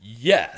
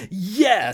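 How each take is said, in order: First: Said in the usual way. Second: Much higher, louder Yeah; louder retort. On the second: Acted. Narrator answers escalating.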